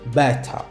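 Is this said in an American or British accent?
British. It is said in a British accent. "Au Royaume-Uni, on les prononce"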